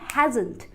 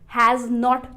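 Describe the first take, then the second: First: It is said as one contracted word. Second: It is said as two separate full words.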